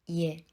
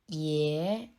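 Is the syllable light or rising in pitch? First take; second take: light; rising. First: The syllable is said lightly with a neutral tone. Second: The syllable is said with a rising tone. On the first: "le deuxième caractère se prononce au ton neutre" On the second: "le premier caractère se prononce au deuxième ton"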